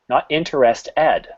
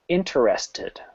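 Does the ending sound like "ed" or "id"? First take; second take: ed; id. First: The ending is said with an "ed" sound. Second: The ending is said with an "id" sound. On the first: The speaker calls it wrong. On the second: The speaker calls it right. "The whole word is pronounced this way"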